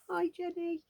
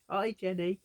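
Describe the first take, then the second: First: The voice is unusually high-pitched. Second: The voice is at its normal pitch.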